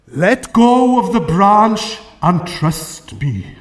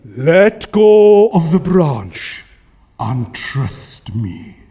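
First: Slow, booming voice from heaven; God. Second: God. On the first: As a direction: intone it slowly, with solemn authority. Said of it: "I am God". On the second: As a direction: boom the order out, then sink deep on the last words. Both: Acted.

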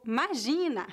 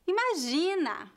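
First: "imagina" said as 'magina, dropping the first i; clipped 'magina. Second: "imagina" with every syllable, starting clearly on i; full imagina. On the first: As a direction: drop the opening i of "imagina", casual São Paulo style. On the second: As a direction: say "imagina" fully, initial i sounded. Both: Shown as a demonstration. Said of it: "muitas pessoas dizem".

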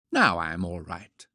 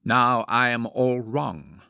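First: Settled, satisfied declaration; self-assured conviction. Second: Slow, louder mock-confident declaration; mock conviction. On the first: Woman putting down her powder puff, self-assured. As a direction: state it with easy conviction. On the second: Man imagining himself after powdering, mock conviction. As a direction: announce it grandly with full conviction. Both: A narrator's reading. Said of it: "with equal conviction".

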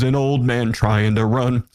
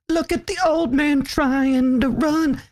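First: Said in the usual way. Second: High, slow teasing voice; mocking taunt. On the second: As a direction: taunt him like a teenage girl. Mocking teenage girl taunt.

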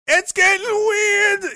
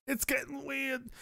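First: Very high, drawn-out comic yell; high loud wail. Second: High, small, slow worry; soft high voice. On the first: Streamer panicking comically about a creepy book, high loud wail. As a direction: blow it up into a slow, high wail. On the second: Streamer fretting comically about a creepy book, soft high voice. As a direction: say it softly in a high put-on voice. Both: Acted.

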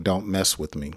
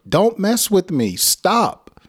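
First: Low, soft and firm; quiet firm warning. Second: High, loud call for help; loud angry yell. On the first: Teacher contrasting a softer angry warning. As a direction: say it low under your breath. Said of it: "So you're expressing your anger by saying". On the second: Teacher demonstrating a loud yell to draw help. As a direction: yell it so someone nearby will come. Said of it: "express your anger loudly". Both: Shown as a demonstration.

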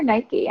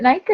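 First: "Nike" ending in an ee sound, NY-kee; two-syllable Nike. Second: "Nike" as one syllable, rhymes with bike. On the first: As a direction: say "Nike" to rhyme with spiky. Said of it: "Is it Nike or Nike?". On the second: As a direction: say "Nike" with a silent e. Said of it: "Do you say Nike?". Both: Shown as a demonstration.

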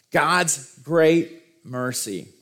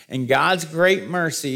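First: Very slow, word by word; slow emphasis. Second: Said in the usual way. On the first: Shown as a demonstration. Preacher lingering on the verse's key phrase, slowly emphatic. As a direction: dwell on "God's great mercy", pausing between the words.

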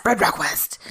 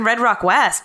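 First: Lower, hushed movie-title reading; mock-dramatic title echo. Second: Said in the usual way. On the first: Co-host repeating the film title, mock-dramatic echo.

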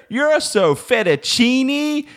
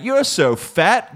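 First: High, slow, hammed-up Italian robot; mock Italian accent. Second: A higher, slow half-hammed robot line; mock robot insult. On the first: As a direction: sing it out like a cheesy Italian waiter. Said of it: "if I heard". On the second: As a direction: drag out the insult like a machine. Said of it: "It could have been like".

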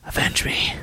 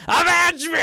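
First: Avenge me whispered low and hushed; creepy whisper. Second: Villain shout. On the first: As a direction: breathe Avenge me as a menacing whisper. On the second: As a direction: explode Avenge me as a high villain shout. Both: Retold or imitated. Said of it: "Even the scene where it's like".

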